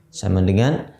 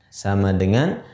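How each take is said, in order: Both takes have the same delivery.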